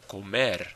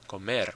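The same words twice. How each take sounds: First: The stress is on the last syllable. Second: The same.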